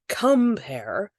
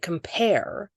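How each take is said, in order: First: The stress is on the first syllable. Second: The stress is on the second syllable. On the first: The speaker calls it wrong. "We don't say um" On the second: The speaker calls it right. "we say compare. The stress is on the second syllable"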